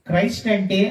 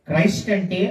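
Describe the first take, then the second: No difference in how they are said.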